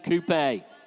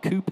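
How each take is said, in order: First: The word is said the British way. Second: The word is said the American way.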